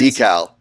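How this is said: It is said the American way, like decal.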